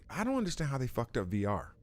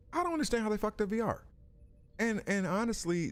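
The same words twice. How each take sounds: First: Said in the usual way. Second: Higher, fast, exasperated "I don't understand"; exasperated disbelief. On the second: Real, not acted. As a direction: blurt it out in disbelief, fast and high.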